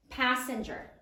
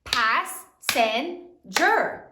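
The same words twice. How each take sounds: First: Said in the usual way. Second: Very slow, each syllable drawn out. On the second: Shown as a demonstration. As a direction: stretch Passenger into its three syllables. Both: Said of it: "How many syllables are there in passenger?".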